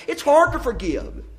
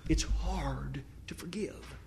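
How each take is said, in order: First: Higher, hammered home from the pulpit; emphatic refrain. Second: Slow hushed whisper, much softer; whispered refrain. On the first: Preacher declaring to the congregation, emphatic and higher. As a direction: land it like a verdict. Loud refrain, later whispered. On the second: Preacher repeating the refrain to his church, in a slow whisper. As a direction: breathe it out as a private confession. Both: Acted.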